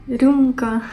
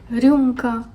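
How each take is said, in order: No difference in how they are said.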